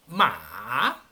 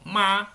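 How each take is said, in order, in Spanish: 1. El tono baja y luego sube. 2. El tono no baja y sube. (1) "tiene que bajar y luego subir" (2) "si digo ma, significa mamá"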